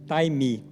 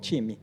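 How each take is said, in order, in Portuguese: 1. A primeira vogal soa como 'eye'. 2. Soa como a palavra portuguesa para time. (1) "mas pronuncia-se taimi" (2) "a gente lê time, time de futebol"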